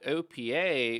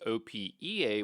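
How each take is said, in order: First: It is said as a single word. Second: Each letter is said separately.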